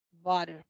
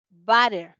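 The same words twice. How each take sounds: First: "butter" with short uh in first syllable; schwa vowel. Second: "butter" with wide-open a in first syllable; louder "butter", opened up like "batter"; open-A vowel. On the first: Teacher contrasting two sounds, "butter" with schwa. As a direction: lower "butter", mouth barely open. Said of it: "y esta es con A". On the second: Teacher contrasting two sounds, "butter" with open a. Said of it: "esta es con A". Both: Shown as a demonstration.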